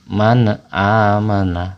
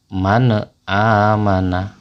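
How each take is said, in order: Both takes have the same delivery.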